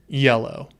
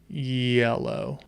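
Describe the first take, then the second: First: The word is said at normal speed. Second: The word is said slowly and drawn out.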